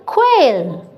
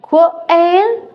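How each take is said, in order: First: "quail" dropping to a settled fall; falling tune. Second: "Quail" lifted high at the end like a question; rising question tune. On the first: Teacher answering the drill with a falling "quail". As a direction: bring "quail" down to close it. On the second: Teacher drilling "Quail" with a rise. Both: Shown as a demonstration. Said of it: "it's qu".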